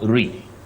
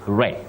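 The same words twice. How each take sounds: First: The vowel is a high-front sound. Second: The vowel is a mid-front sound. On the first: The speaker calls it wrong. "not re" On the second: The speaker calls it right. "takes the mid-front sound E. You say re"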